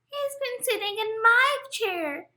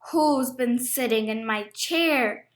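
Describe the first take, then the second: First: The voice is high, small and squeaky. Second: The voice is deep, gruff and growling. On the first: "Squeaked Baby Bear" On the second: "He growled in his great gruff voice"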